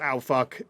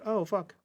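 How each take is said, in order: First: It is yelled loudly. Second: It is said at conversational volume.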